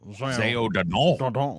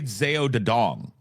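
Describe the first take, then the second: First: The name ends on an open vowel sound. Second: The name ends with an ng sound. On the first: "that big open O at the end of it" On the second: "he doesn't say Zeo de Dong"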